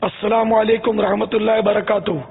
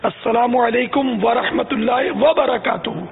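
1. 'rahmatullah' سے پہلے 'wa' چھوڑ دیا جاتا ہے۔ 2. 'rahmatullah' سے پہلے 'wa' صاف بولا جاتا ہے۔ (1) "یہ واو کھانے کا بہت مطلب سلسلہ ہے" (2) "واو پر زبر بھی بولنا ہے"

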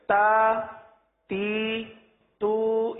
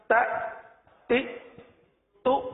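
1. یہ آوازیں بہت زیادہ کھینچی ہوئی ہیں۔ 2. یہ آوازیں جھٹکے کے ساتھ کٹ جاتی ہیں۔ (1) "یہ بڑھ جائے گا، بڑھانا نہیں ہے، کھینچنا نہیں ہے" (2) "یہ جھٹکا ہے، اس سے بھی بچنا ہے"

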